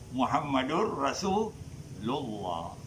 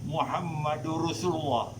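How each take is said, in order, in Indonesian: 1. Vokal dalam Rasul dibaca panjang. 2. Vokal dalam Rasul dibaca pendek.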